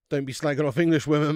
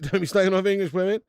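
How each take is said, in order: First: Said in the usual way. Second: Slagging pushed up and a bit louder; stressed repeat. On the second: Real, not acted. Host telling a chat viewer off, with slagging pushed up. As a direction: say it again, leaning on slagging.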